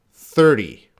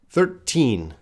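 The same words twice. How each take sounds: First: "Thirty" with the stress on "thir" and a short, light T; short final T. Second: Put-on "Thirteen" with a strong, clear, held "teen"; stress on teen. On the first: Teacher contrasting thirty with thirteen for the class. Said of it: "you gotta be very clear". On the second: Teacher drilling the class on the teen ending. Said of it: "I'm focusing on teen". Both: Shown as a demonstration.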